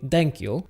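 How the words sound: It begins with a d sound. "the T H sound can also sound like a D"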